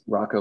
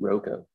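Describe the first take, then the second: First: The first syllable rhymes with 'rock'. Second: The first syllable sounds like 'roe'. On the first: "like a rock" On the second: "phonetically it should be ROCO"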